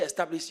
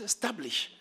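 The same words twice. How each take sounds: First: The word begins with a vowel sound. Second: The word begins directly with an 's' sound. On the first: The speaker calls it wrong. "King James doesn't say establish" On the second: The speaker calls it right. "It says establish. ... You remove the S and the E"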